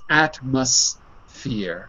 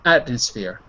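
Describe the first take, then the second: First: It is said slowly, with a clear M sound. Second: It is said quickly, the M sounding like N. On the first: "When you say it slowly" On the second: "when you're speaking quickly by saying atmosphere"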